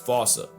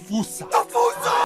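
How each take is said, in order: First: The first vowel is an 'o' sound. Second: The first vowel is an 'oo' sound. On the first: This is how England says it. "England pronounces it as" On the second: This is how Americans say it. "Americans saying"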